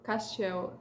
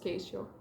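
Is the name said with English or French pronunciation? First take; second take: French; English. First: The name is said with French pronunciation. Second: The name is said with English pronunciation. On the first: The speaker calls it right. "Castiel is the right pronunciation" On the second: The speaker calls it wrong. "his name in English is pronounced Keistio"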